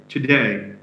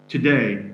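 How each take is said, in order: The two takes are said the same way.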